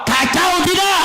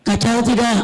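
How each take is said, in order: First: High-pitched call to the crowd; rousing shout. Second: Said in the usual way. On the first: Real, not acted. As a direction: shout the question to get a response. Repeats question to rouse crowd. (seruan lantang bernada tinggi)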